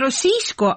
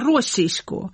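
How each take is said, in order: First: The stress falls on a later syllable. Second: The stress falls on the first syllable. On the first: The speaker calls it wrong. "не російсько" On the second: The speaker calls it right. "на першому складі наголос"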